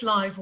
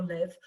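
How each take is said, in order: First: "live" rhyming with five; "live" as LYVE; long-i pronunciation. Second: "live" rhyming with give; "live" as LIV; short-i pronunciation. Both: Shown as a demonstration. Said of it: "I never know whether it's live or live".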